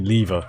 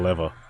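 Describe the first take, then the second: First: It is pronounced the Australian way. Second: It is pronounced the American way. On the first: "I say lever" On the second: "instead of lever"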